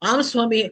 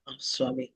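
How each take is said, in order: First: The phrase is said loudly, almost shouted. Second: The phrase is said at a normal, quiet volume. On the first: The agreement disturbs the person praying. The speaker calls it wrong. "நாம ஏன் சத்தமா" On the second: Agreement is given without disturbing the prayer. The speaker calls it right. "ஆம் சுவாமி நம்ம சொல்றோம்ல"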